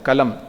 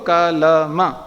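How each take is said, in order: First: The final vowel is dropped after the m. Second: The final vowel is fully pronounced after the m. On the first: This is the Hindi way of saying it. The speaker calls it wrong. "उसको आधा बोल दिया तो कलम बन गया" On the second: This is the Sanskrit way of saying it. The speaker calls it right. "जैसा है वैसे बोलो"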